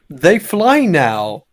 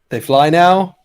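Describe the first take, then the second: First: The voice falls at the end like a statement. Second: The voice rises at the end like a question. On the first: It is stated as a fact. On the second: It is asked in surprise.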